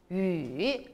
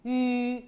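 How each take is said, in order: First: 유 dropped low, then lifting; third tone. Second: 유 drawn out on a level pitch. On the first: Teacher models third tone for students, 유 dipping low. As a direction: dip 유 down and up. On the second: Teacher reads out the pinyin syllable, 유 held level. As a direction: hold 유 even, without a dip. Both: Shown as a demonstration. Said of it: "삼성으로 해보세요".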